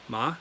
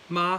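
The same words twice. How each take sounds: First: The pitch rises toward the end. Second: The pitch stays high and level. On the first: "and then ma, second tone" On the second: "the first one is ma, high flat tone"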